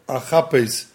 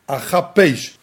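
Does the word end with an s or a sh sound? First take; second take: s; sh. First: The word ends with an s sound. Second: The word ends with a sh sound. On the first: I will seek. "do not read the word achapes with a samach" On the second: I will free. "elo beshin"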